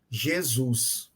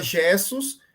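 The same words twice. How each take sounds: First: Modern Jesus, stressed on the last syllable; final-syllable stress on Jesus. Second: Put-on older Jesus, stressed on the first syllable. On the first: Teacher showing the shifted accent of the name, stress on SUS in Jesus. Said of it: "de uma sílaba para a posterior". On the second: Teacher showing the older form of the name, stress on JE in Jesus. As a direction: stress JE in Jesus, leaving the ending weak. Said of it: "deslocamento de um acento tônico". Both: Shown as a demonstration.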